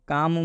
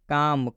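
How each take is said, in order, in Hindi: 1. L की ध्वनि चुप रहती है। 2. L की ध्वनि चुप रहती है।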